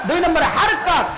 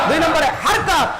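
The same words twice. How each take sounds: No difference in how they are said.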